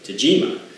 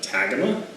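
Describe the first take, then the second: First: The middle consonant is a J sound. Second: The middle consonant is a hard G sound. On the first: The speaker calls it right. "I'm pretty sure from some online research that it's pronounced Tajima" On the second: The speaker calls it wrong. "The first time I saw it I went Tagama"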